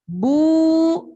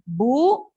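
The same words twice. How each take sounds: First: The vowel is held long. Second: The vowel is held short. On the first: "jika ditambah dengan waw sukun berubah jadi bu" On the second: "bu pendek"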